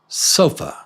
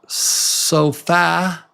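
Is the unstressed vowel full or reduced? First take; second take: reduced; full. First: The final vowel is reduced to a quick schwa. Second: The final vowel is pronounced fully. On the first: The speaker calls it right. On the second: The speaker calls it wrong.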